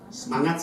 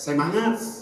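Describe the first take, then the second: First: It is said in a Jakarta accent. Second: It is said in a Flores accent. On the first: "orang Jakarta apa itu?" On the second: "orang Flores semangat"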